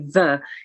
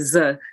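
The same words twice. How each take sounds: First: The word begins with a soft th sound. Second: The word begins with a buzzing z sound. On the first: "you would probably not say the" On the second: "if you were French, you would probably say the"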